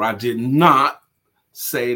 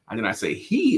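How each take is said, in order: First: The stress is on "not". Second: The stress is on "he".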